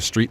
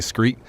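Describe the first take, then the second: First: The word begins with an 'str' sound. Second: The word begins with an 'skr' sound. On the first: "instead of street" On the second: "replace the T R in words with uh, like a C R"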